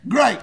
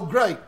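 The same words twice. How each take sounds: First: The word is said with a booming, enthusiastic tone. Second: The word is said with a sarcastic, irritated tone. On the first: Something is truly wonderful. "like Tony the Tiger does" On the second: Something annoying has just happened. "we use it in sarcasm"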